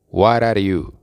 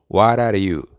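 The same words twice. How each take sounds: Both takes have the same delivery.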